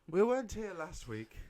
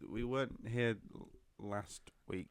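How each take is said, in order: First: It is said in a bold, confident manner. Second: It is said in a plain, hesitant manner.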